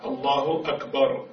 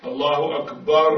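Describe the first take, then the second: First: Slow الله أكبر with a short, single final r; measured الله أكبر, brief r; correct reading. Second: أكبر with a doubled, vibrating r; repeated r. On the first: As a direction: end أكبر cleanly, no trill. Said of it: "يجب أن تقرأ صحيحة". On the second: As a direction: end أكبر on a long rolled "rrr". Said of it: "تكررت الراء صارت مشددة". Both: Shown as a demonstration.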